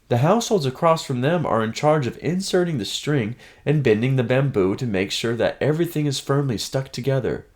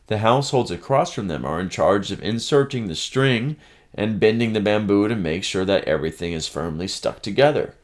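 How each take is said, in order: First: It is said in Hannah's character voice. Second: It is said in a voice other than Hannah's.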